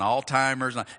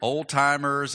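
First: It begins with 'all' and has a 't' sound. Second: It begins with 'old' and has a 't' sound. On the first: "and all-timers" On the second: "I hear old-timers"

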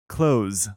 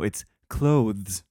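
First: The th sound is dropped, like 'close'. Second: The th sound is clearly pronounced. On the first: The speaker calls it wrong. "When she says" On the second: The speaker calls it right. "no, it's clothes"

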